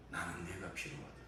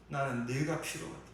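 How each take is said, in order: First: Soft repetition. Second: Raised declaration. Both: Acted. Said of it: "주님은 이렇게 대답하실 것입니다".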